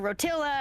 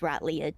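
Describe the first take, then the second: First: The middle has an 'ill' sound, run together. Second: It is 'Rot' then 'Leah', with no 'ill' sound. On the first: The speaker calls it wrong. "I've heard people pronounce it Rotilla" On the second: The speaker calls it right. "It's it's Rot Leah"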